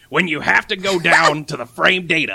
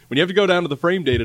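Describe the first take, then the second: First: It is said in a gravelly put-on voice. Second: It is said in a natural everyday voice. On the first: "Can you do it in Nate's voice? ... He's too gravelly" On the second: "Just do it in your regular voice"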